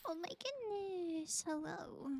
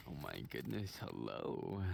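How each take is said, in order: First: Higher drawn-out greeting; higher slow greeting. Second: Low voice. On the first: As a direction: echo it back higher and slower. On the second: Low greeting voice. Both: Pretend.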